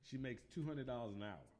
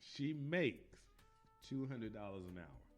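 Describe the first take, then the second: First: It is said at a normal pace. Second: It is said slowly and deliberately.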